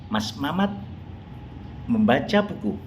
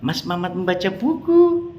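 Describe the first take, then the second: First: It is said with statement intonation. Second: It is said with question intonation. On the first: It informs that he is reading a book. "bentuknya merupakan kalimat informatif" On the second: It wonders why he is suddenly reading. "kalimat tanya dengan intonasi yang berbeda"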